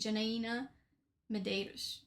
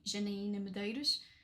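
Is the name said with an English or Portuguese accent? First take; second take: English; Portuguese. First: The name is said with an English accent. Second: The name is said with a Portuguese accent. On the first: "if I'm saying it in an English accent" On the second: "I'm Portuguese, so I'm I'll say"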